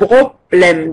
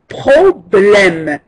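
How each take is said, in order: First: The word begins with a B sound. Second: The word begins with a P sound. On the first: The speaker calls it wrong. "tu es en train de dire un problème. Donc, c'est le contraire" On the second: The speaker calls it right. "B et P doivent être bien prononcés"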